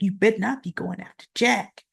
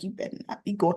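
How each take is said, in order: First: A touch softer, a mild warning with a rising end on Jack; pointed warning. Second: Hushed, soft threat from a glaring wife. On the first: Wife warning Victor off Jack, mild pointed retelling. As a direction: spell out the warning fully, lightly. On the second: Wife glaring at Victor, warning him quietly under breath. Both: Retold or imitated. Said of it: "She's just looking at him like".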